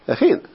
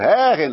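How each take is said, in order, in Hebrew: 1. ההטעמה על ההברה האחרונה. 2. ההטעמה על ההברה שלפני האחרונה. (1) "אתה אומר לה מלרע" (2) "אם זה מלעל, הייתי אומר"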